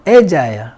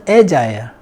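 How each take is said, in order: Both takes have the same delivery.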